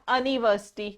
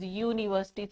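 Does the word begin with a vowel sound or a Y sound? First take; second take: vowel sound; Y sound. First: The word begins with a plain vowel sound. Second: The word begins with a Y consonant sound. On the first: The speaker calls it wrong. "it is not university" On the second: The speaker calls it right. "the sound you are getting is the Y sound"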